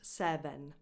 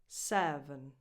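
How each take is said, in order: First: The second vowel is a full vowel. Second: The second vowel is a reduced schwa. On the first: The speaker calls it wrong. "Not seven" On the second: The speaker calls it right. "It's just a schwa"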